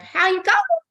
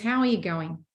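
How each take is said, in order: First: The voice rises at the end. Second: The voice falls at the end.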